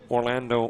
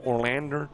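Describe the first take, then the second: First: It ends in an O vowel, Northern style. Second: It ends with an added R, Southern style.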